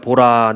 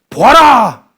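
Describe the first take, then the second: First: The word is said calmly and flatly. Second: The word is said as a strong exclamation. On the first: It is read as a plain, quiet statement. The speaker calls it wrong. "좀 이렇게 차분하게 읽으니까" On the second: It is an emphatic, confident call to look. The speaker calls it right. "이 감탄사인 거예요"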